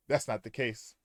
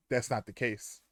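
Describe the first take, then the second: No difference in how they are said.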